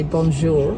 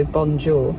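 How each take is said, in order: First: Smooth native "bonjour", all one sound; French bonjour. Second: "bonjour" said the English way, hard "bon" and "jour" as "jaw"; flat Brit tourist "bonjour". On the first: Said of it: "a French person say it and they say". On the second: Wife mocking how Brits say French greetings, English-style bonjour. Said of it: "when we see bonjour, we just go". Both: Shown as a demonstration.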